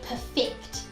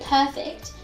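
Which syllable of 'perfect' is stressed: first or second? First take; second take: second; first. First: The stress is on the second syllable. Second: The stress is on the first syllable. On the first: The speaker calls it right. "you want to say perfect" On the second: The speaker calls it wrong. "You don't want to say perfect"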